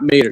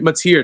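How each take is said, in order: First: The name ends with a short 'ter' sound. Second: The name ends with a long 'teer' sound. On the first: The speaker calls it wrong. "not Mater. Yeah, I, I said it wrong" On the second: The speaker calls it right. "it's Mateer"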